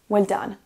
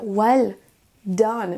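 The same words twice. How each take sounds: First: The two words run together like one word. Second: There is a short pause between the words. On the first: "lier et prononcer de la façon suivante. Comme si c'était seulement un mot" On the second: "faire de pause entre les deux mots"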